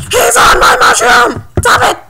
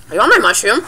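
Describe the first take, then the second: First: High, loud tantrum yell; mock outraged shriek. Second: Said in the usual way. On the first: Player spotting someone on the mushroom, mock outraged shriek.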